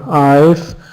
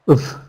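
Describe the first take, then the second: First: It starts with a full 'eye' vowel. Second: It is reduced to a short weak 'uv'. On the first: "we might not even use the the sound I've" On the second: "it's still too long for some of us"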